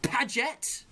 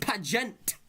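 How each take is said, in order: First: There is no n sound before the t. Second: An n sound comes before the t. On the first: The speaker calls it right. "It's Paget" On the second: The speaker calls it wrong. "he's mispronouncing my name"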